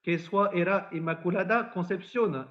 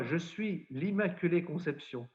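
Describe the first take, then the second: First: Lourdes patois, lightly proclaimed; mild retold cry in patois. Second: Said in the usual way. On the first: Bernadette to the parish priest, mildly proclaimed in Lourdes patois. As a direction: announce it in Lourdes patois without really shouting. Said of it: "elle crie aussitôt à monsieur le curé".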